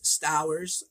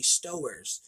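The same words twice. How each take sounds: First: The vowel sounds like the one in 'towers'. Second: The vowel sounds like the one in 'stores'. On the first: The speaker calls it wrong. "I thought his name was Stowers, you know, S Towers" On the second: The speaker calls it right. "it's actually Stowers, which is kind of similar to Stores"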